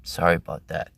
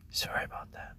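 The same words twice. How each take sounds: First: Said in the usual way. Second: Unvoiced hushed apology; breathy sorry whispered. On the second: Whispered repeat.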